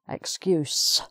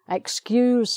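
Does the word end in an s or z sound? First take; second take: s sound; z sound. First: The word ends with a hissing s sound. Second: The word ends with a buzzing z sound. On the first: It is the noun. "excuse with S" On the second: It is the verb. "to excuse somebody is the verb"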